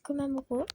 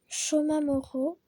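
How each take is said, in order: First: The name starts with a k sound. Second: The name starts with a sh sound. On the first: The speaker calls it right. "c'est Komamoro" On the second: The speaker calls it wrong. "Le H se prononce pas"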